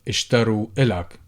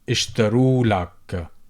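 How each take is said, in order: First: A vowel is said before the l sound. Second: The vowel before the l sound is dropped.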